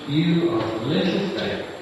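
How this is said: It sounds gentle and encouraging.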